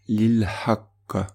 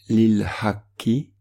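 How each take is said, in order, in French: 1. La phrase se termine par une consonne fortement marquée. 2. La phrase se termine par un son de voyelle finale.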